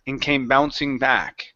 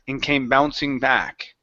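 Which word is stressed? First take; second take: back; back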